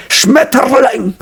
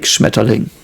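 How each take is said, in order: First: High, drawn-out harsh parody "Schmetterling"; Hitler. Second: Said in the usual way. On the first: Retold or imitated. Testing viewers' opinion, hammed-up Hitler-style "Schmetterling". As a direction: stretch "Schmetterling" into a mock dictator's rant. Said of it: "So the, the Hitler version". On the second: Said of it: "how I would say it in everyday life".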